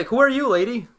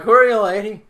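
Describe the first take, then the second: First: Raised, high-pitched call to a stranger; loud demand. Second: Put-on high, very loud drunken holler. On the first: Acted. Player confronting the veiled woman across the room, loud demand. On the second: Drunk player calling out to the veiled woman, drunken holler. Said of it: "I'm still all drunk".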